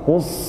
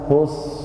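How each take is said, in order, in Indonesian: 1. S ganda itu ditekan dan ditahan berlebihan. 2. S ganda itu ditekan dan ditahan sebentar. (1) "jangan menekan berlebihan Pak, gini" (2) "Jadi cuman ditekan aja biasa"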